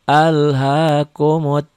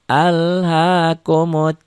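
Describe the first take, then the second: Both takes have the same delivery.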